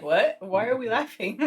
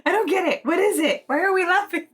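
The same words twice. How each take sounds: First: Lightly voiced puzzled teacher; a hint of a baffled teacher, near normal pitch; imitated teacher. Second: High-pitched mock confused classmate; Nick. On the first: Teacher asking the French class why they laugh, mildly puzzled imitation. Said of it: "and the teacher was like". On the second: Clueless student asking why the class laughs, high imitated bafflement. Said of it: "One of them was Nick".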